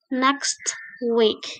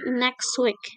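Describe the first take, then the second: First: The t at the end of next is pronounced. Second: The t at the end of next is dropped. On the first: The speaker calls it wrong. "It's not is not next week" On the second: The speaker calls it right. "tapi next week"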